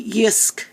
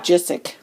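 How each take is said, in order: First: The name is said the Swedish way. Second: The name is said the everyday English way. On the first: This is how the store's own people say it. "you actually pronounce the name Yisk" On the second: This is how most people locally say it. "Everyone calls it Jisic"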